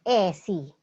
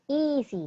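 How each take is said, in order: First: The first vowel is not a long E. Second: The first vowel is a long E. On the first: The speaker calls it wrong. "not easy" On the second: The speaker calls it right. "if it's E with a long, uh, with a bar on top, then it means you pronounce it easy"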